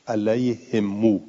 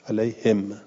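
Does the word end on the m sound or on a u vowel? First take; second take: u vowel; m sound. First: The final m is followed by a long u. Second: The word ends on a silent, unvoweled m. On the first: This is the reading of the Hijaz reciters. "وصل میکنن میم علی هم را به یک واو" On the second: This is the reading of the other reciters. "به سکون المیم"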